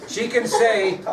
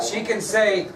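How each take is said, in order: Both takes have the same delivery.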